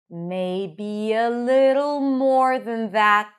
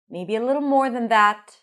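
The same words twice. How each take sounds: First: The phrase is spoken slowly. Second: The phrase is spoken faster. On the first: "Let's do it again slowly" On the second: "A little faster"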